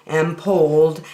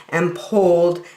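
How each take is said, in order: Both takes have the same delivery.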